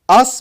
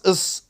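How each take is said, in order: First: The word is said fully with a clear vowel. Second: The word is said short with a weak vowel.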